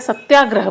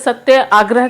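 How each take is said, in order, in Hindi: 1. दोनों शब्द मिलकर एक तेज़ शब्द बन जाते हैं। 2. दोनों शब्द अलग-अलग बोले जाते हैं।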